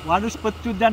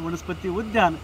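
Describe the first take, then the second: First: The first vowel is long, 'vaa'. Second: The first vowel is short, 'va'. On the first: The speaker calls it wrong. "आता वानस्पती उद्यान नको" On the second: The speaker calls it right. "तर वनस्पती उद्यान सरळ"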